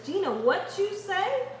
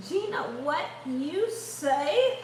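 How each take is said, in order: First: Bright teasing call to Gina; quick teasing shout-out to Gina; playful call. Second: Slow, softer, sing-song repeat; slow drawn-out teasing call; drawn-out tease. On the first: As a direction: toss the question out higher, playfully. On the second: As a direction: stretch it out lazily like a joke. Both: Pretend.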